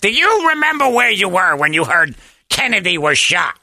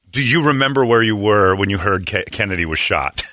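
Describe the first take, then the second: First: It is said in an imitated, put-on voice. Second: It is said in the speaker's ordinary voice.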